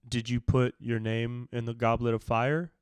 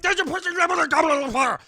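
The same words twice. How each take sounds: First: It is asked in a calm, quiet manner. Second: It is asked in a loud, aggressive manner.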